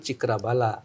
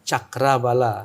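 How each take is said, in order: First: The first syllable has the vowel 'i'. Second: The first syllable has the vowel 'a'. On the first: This is the form commonly used locally. The speaker calls it wrong. "di Bali sudah umum disebutkan Cikrabala" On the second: This is the original form meaning wheel of power. The speaker calls it right. "sebenarnya itu adalah Cakrabala"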